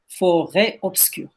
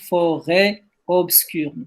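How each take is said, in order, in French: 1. Les deux mots s'enchaînent sans pause. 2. Il y a une pause après le premier mot. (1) "on ne peut pas s'arrêter sur forêt" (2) "Faut pas dire forêt obscure"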